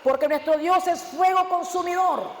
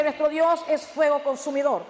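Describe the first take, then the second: First: Slow, deliberate reading of the verse; measured verse read from the pulpit; slow scripture reading. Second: Slow, shouted proclamation of "fuego consumidor"; thundering pulpit cry; preached shout. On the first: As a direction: read it slowly, weighing each word. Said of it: "cuando dice". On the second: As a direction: shout the verse out, slow and heavy. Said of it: "me dice". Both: Shown as a demonstration.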